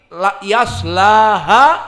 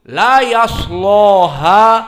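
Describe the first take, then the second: First: The vowel after s is a thin, light a. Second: The vowel after s is a heavy, dark o-like a. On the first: "dibaca dengan tarkik" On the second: "dibaca taglid"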